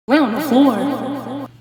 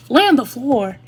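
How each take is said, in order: First: Slow, incredulous, through a laugh; slow laughing echo of the order; laughing disbelief. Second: Loud, higher outraged repeat; loud exasperated echo; incredulous. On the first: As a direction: drag it out, laughing at how absurd it is. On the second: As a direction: throw the words back in disbelief. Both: Real, not acted. Repeats nurse's absurd order.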